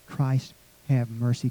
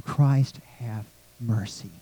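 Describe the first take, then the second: First: Soft and slow, barely voiced; hushed prayer. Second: Much softer, lower hushed plea; whispered prayer. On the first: Worshippers whispering the prayer, slow and hushed. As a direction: pray it under your breath, slowly. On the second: Congregation quietly praying the Kyrie, hushed. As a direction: breathe the prayer under your voice. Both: Shown as a demonstration. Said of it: "Kinda we whisper that prayer".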